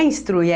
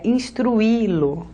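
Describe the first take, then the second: First: Instruir as ins-TRUI, UI glued in one syllable; vowels run together. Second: Instruí-lo slowly, long stressed I apart from U; instruí-lo with the I as its own drawn-out syllable; split vowels, hiatus. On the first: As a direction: say instruir wrongly with a diphthong and no hiatus. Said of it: "é instruí-lo". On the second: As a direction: stretch instruí-lo as ins-tru-Í-lo. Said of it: "Não é instruir". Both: Shown as a demonstration.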